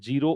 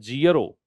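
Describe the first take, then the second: First: The first vowel is a plain long 'ee'. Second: The first vowel glides, like 'zee-uh-roh'. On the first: The speaker calls it wrong. "आपको तो habit ये है जीरो" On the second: The speaker calls it right. "इसका उच्चारण ये होता है जियरो"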